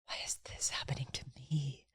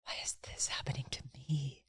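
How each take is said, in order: First: It sounds humbled and full of awe. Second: The same.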